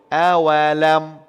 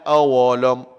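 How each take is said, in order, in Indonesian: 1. Semua bunyi diucapkan ringan dan tipis. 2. Semua bunyi diucapkan berat dan tebal. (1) "Semua lembut" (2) "Jangan awalam ... Lumur semua tebal. Salah"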